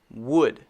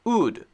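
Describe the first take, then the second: First: The W at the start is clearly pushed out. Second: The W at the start is weak, almost missing. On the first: The speaker calls it right. "the correct pronunciation of this word is wood" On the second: The speaker calls it wrong. "if I say it the wrong way"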